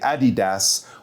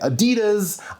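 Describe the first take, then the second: First: It is said the European way. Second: It is said the North American way.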